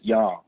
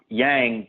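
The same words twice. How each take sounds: First: It is said with a Chinese-style pronunciation. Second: It is said with an anglicized English pronunciation. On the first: This is how native speakers say it. "the Chinese themselves, always pronounce it" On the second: This is how most people say it. "most people pronounce it"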